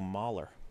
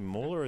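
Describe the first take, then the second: First: The name is said with an American vowel. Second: The name is said with a British vowel. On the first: "Americans go" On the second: "the British way of saying it"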